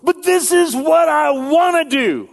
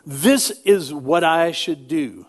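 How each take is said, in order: First: High, loud whining wanting voice; voice of desire. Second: Said in the usual way. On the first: Retold or imitated. Preacher voicing the want against the should, high whiny plea. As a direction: wail it like a greedy kid. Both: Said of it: "the voice of my desires says".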